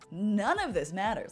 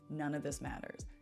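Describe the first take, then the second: First: It is said in a light, joyful tone. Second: It is said in a heavy, despairing tone. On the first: One is free to live as one wants. "except the tone has changed. And now it's" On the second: Nothing one does has any point. "I always used to have this line on repeat in my brain"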